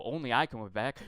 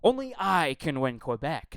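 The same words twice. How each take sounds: First: Lighter mocking echo of the slogan, ending on a rise; mild mock candidate. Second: Louder mocking parody of the slogan; mocking candidate. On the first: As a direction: toss it off with a sarcastic lilt. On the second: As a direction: ham it up like a boastful candidate. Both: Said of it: "the second thing was".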